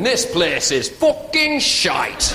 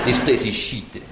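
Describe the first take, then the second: First: Put-on broad Yorkshire accent, slow and drawn-out; hammed-up Yorkshire verdict; Captain Cook. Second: Low-pitched mock French accent; disdainful French-accented verdict. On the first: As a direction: stretch it out in thick Yorkshire. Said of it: "Captain Cook actually came from Yorkshire". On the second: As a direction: put on a deep French accent. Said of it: "The French looked around and went".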